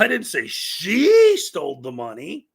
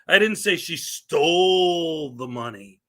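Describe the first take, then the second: First: The word 'she' is stressed. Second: The word 'stole' is stressed. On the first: Someone else stole the money. "I didn't say it was her" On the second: She got the money some other way. "It means I didn't say she stole it"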